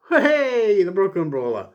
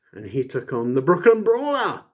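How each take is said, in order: First: High loud cheer; a sudden high, loud cheer; excited. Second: Said in the usual way. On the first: Real, not acted. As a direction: hail him like a crowd favourite. Cheering a jobber's name.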